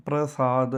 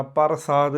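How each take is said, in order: First: ਪ੍ਰਸਾਦ as "pra-saad", r right after p; joined pr cluster. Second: ਪ੍ਰਸਾਦ said "par-saad", vowel before r; full r. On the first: Teacher shows what to say, "pra-saad" with joined pr. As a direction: glue p to r in ਪ੍ਰਸਾਦ. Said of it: "ਇਹ ਕਹਿਣਾ". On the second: Teacher shows what not to say, "par-saad" with full r. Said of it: "ਰਾਰਾ ਪੂਰਾ ਨਹੀਂ ਬੋਲਣਾ". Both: Shown as a demonstration.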